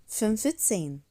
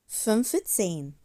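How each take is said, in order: No difference in how they are said.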